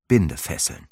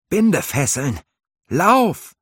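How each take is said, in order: First: Said in the usual way. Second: High, loud warning cry, rising to a yell on Lauf; alarmed shout. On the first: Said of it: "narrator repeats the word". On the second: A narrator's reading. Halvar yelling a warning from the raven swarm. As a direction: shout the danger, then run.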